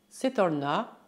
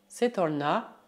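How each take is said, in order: The two takes are said the same way.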